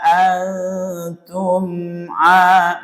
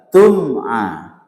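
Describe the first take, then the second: First: The m sound is held before the next vowel. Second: The m sound moves quickly into the next vowel. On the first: The speaker calls it wrong. "Maksudnya ditahan begini" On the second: The speaker calls it right. "Enggak boleh ditahan, harus cepat"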